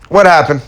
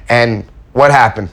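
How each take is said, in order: First: "What happened?" higher and louder, stress on what; emphatic repeat. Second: Said in the usual way. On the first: Shown as a demonstration. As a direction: punch "What" as you repeat it.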